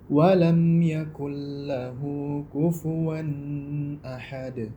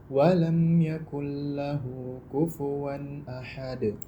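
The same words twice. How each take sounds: First: The nasal hum on the n is drawn out. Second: The n is clear with no drawn-out hum. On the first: The speaker calls it wrong. "kalau kita panjangkan dengungnya, maka itu keliru" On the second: The speaker calls it right. "Jadi yang benar"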